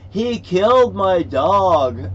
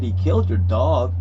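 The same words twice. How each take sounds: First: Retold yell, loud and drawn out; upset outburst. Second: Retold disbelief, loud; startled echo question. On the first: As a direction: imitate a high, slow holler of protest. Retelling an upset man's outburst. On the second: Retelling own startled echo question.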